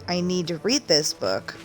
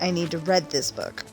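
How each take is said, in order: First: The word read rhymes with reed. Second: The word read rhymes with red. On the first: The speaker calls it right. "the character saying" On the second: The speaker calls it wrong. "she's saying"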